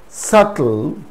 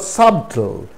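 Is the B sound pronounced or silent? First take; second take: silent; pronounced. First: The B sound is silent before the T. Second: The B sound is pronounced before the T. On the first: The speaker calls it right. "B is silent before the letter T" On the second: The speaker calls it wrong. "it's not subtle"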